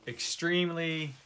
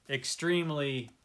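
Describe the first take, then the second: No difference in how they are said.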